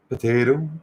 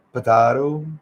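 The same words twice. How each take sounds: First: "Potato" with a long AY in the middle; AY pronunciation. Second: "potato" with a long AH in the middle; AH pronunciation. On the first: Showing different ways of pronouncing, "Potato" with an AY sound. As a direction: say "Potato" as po-TAY-to. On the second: Showing different ways of pronouncing, "potato" with an AH sound. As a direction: say "potato" as po-TAH-to. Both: Shown as a demonstration. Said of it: "Different ways of pronouncing names".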